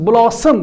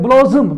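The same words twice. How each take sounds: First: The middle consonant sounds like an s. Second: The middle consonant sounds like a z. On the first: The speaker calls it right. "it is blossom. The s is the sound" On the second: The speaker calls it wrong. "So many t- students uh, pronounce it like blossom"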